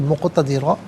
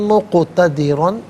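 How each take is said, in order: First: The word ends with a long a sound. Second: The word ends with an n sound. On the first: The reader stops at this word. "यहाँ रुकेंगे तो मुक़तदिरा पढ़ा जाएगा" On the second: The reading continues without a stop. "दो ज़बर की तनवीन"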